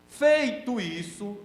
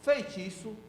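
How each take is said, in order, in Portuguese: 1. As duas palavras são ditas com clareza e separadamente. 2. As duas palavras são ditas juntas, como uma só. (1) "tem que falar certo" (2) "não pode falar assim"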